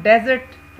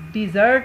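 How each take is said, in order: First: desert with डे stressed; डे strong, jot lighter in desert; stress on first syllable. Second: dessert with jot punched louder; light डि, then a strong jot; stress on second syllable. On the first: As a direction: punch the opening डे of desert. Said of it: "जो underline पहला हिस्सा है". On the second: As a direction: hit the second part of dessert hard. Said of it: "अगर हम second part पे stress". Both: Shown as a demonstration.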